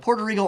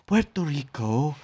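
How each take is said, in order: First: It is said with a plain English accent. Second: It is said with an exaggerated Spanish accent. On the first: "He'd go" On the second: "Oh, sorry"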